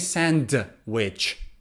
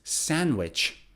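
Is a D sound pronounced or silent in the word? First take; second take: pronounced; silent. First: The D sound is pronounced. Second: The D sound is silent. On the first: The speaker calls it wrong. "So we don't say sandwich" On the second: The speaker calls it right. "It's sandwich"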